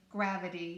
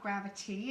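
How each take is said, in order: First: The middle consonant is a soft D sound. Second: The middle consonant is a crisp T sound. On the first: The speaker calls it right. "it's the D instead of the T" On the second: The speaker calls it wrong. "it's not Gravity. It just doesn't sound right"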